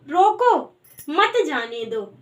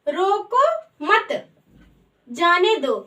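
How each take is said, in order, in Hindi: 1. पहले शब्द के ठीक बाद विराम है। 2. दूसरे शब्द के ठीक बाद विराम है। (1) "अगर हम यहाँ पर एक अल्प विराम लगा देंगे" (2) "अब दूसरा आता है हमारा"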